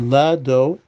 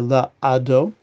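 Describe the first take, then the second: First: The l runs straight into the following vowel. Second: A break separates la from the following vowel. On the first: The speaker calls it right. "I said Lado" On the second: The speaker calls it wrong. "I didn't say La-Ado"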